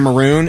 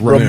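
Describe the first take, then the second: First: The word begins with an M sound. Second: The word begins with an R sound. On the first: The speaker calls it right. "Instead of maroon" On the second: The speaker calls it wrong. "it was always Ramoon"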